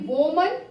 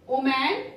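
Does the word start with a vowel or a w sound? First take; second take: w sound; vowel. First: The word starts with a clear w sound. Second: The word starts with a vowel, no w sound. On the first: The speaker calls it right. "It should be woman" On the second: The speaker calls it wrong. "It becomes oman"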